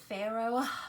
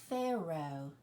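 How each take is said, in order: First: The word ends with an audible breathy h. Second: The word ends on the vowel, without h. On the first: The speaker calls it wrong. "Is it Pharaoh? No, you do not hear that H" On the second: The speaker calls it right. "What's the last thing you hear? It's the O"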